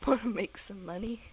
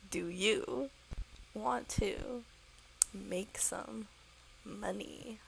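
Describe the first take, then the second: First: Said in the usual way. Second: Deliberate, spaced-out repeat for a slow listener; word by word. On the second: Acted. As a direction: DO YOU, WANT TO, MAKE SOME, MONEY in separate chunks.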